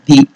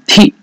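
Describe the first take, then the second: First: The first consonant has no puff of breath. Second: The first consonant has a puff of breath. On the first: The speaker calls it wrong. "not Di" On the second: The speaker calls it right. "And Dhi is Mahaprana"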